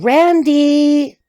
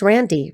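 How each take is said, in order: First: RANDY stretched long and raised high on the end; sing-song, lingering "Randy"; drawn-out name. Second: Said in the usual way. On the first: Shown as a demonstration. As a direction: hold the last vowel of "Randy" up high. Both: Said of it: "I have to say it like that".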